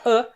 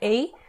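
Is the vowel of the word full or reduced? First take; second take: reduced; full. First: The word has a short, reduced vowel. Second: The word has a full, unreduced vowel. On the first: "mais rápido assim, vai, vai ver falando a, só a" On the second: "O Venom fala até a"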